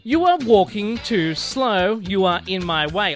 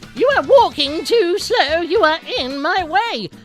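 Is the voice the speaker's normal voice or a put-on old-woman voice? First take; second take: normal; old-woman voice. First: It is said in the speaker's normal voice. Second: It is said in a put-on old-woman voice.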